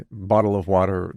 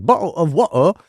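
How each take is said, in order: First: Said in the usual way. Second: Exaggerated British, bottle and water with dropped t's; mock British accent. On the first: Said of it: "they saw something on, like, YouTube". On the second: Dad imitating his kids, hammed-up mock British accent. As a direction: lift it into a cartoonish British glottal-stop accent. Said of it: "anybody who actually is British".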